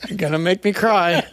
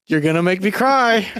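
First: Laughing it out the second time. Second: Said in the usual way. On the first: Real, not acted. Host pressing him about his feelings, laughing. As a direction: let a laugh break through the line.

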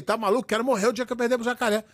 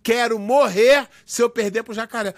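First: Rápido e casual, sem peso; dizer espontâneo. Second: Enfático, pausado, como declaração solene; manchete levada a sério. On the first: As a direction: solte como um dito de momento, distraído. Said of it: "era um dizer que saía assim espontâneo". (jeito espontâneo de falar, sem intenção séria) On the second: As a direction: leia como manchete dramática de revista. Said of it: "Os caras publicaram isso na revista". (declaração pesada, palavra por palavra) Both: Retold or imitated.

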